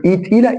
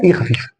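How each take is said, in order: First: إي pitched higher, with weight; heavy ee. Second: إي light and short. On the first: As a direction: give إي a heavy, raised sound. (إي تقيلة) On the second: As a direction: let إي go lightly, without weight. (إي خفيفة) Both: Shown as a demonstration.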